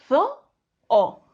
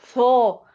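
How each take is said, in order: First: The word is broken into separate syllables. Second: The word is said smoothly in one piece. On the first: The speaker calls it right. "decimos zo-o" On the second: The speaker calls it wrong. "No decimos zo"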